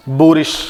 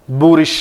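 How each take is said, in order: Both takes have the same delivery.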